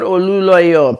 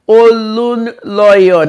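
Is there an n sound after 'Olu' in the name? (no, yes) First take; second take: no; yes. First: No n sound follows the 'Olu' part. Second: An n sound follows the 'Olu' part. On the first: The speaker calls it wrong. "not Oluloyo" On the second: The speaker calls it right.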